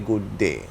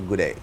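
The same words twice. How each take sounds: First: Both words are said fully and carefully. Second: It is clipped together like an Australian g'day. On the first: "They can't say good day" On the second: "so they say good day"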